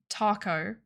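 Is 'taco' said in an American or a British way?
American. The word is said with an American vowel. "You should say taco. That's how you say it"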